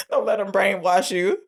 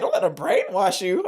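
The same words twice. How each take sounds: First: Said in the usual way. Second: Mock-incredulous repeat, rising at the end; retold disbelieving echo. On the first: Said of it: "Mimi says". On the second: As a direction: echo it back as an offended question. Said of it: "And Dean is like".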